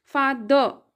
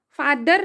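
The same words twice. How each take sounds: First: फादर with the final r barely heard; right way, light r. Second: फादर with the final r clearly sounded; wrong way, rolled r. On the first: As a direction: say फादर, letting the r almost vanish. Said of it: "आर का sound एकदम lightly होता है". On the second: Teacher showing students the wrong way: फादर with a sounded r. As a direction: say फादर ending on a full tapped r. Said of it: "फादर नहीं होता". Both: Shown as a demonstration.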